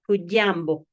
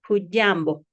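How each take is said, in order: First: The middle consonant is a soft dy sound. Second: The same.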